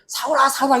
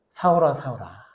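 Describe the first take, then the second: First: The name is called in an angry, scolding tone. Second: The name is called in a warm, gentle tone. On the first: The caller is condemning the listener. The speaker calls it wrong. "이 나쁜 놈의 새끼야. 네가 어떻게 나를 이렇게 그런 게 아니라" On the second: The caller is meeting the listener with kindness. The speaker calls it right. "진짜 따뜻한 음성"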